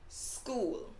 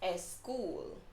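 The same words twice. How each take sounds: First: The word starts directly with the s sound. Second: An extra vowel sound comes before the s. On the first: The speaker calls it right. "there's no E before the word school. So it's actually just school" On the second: The speaker calls it wrong. "when I do have a Spanish speaking student, they will say school"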